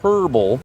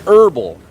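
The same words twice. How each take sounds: First: The word starts with an H sound. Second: The word starts without an H sound. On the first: The speaker calls it wrong. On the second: The speaker calls it right. "The H is silent"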